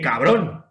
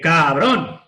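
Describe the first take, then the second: First: It is said in a startled, shaken tone. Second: It is said in an angry, pained tone. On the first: The friend gave the speaker a big scare. "Que menudo susto me has dado" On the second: The friend hit or hurt the speaker. "Que puede ser que me has dado un golpe"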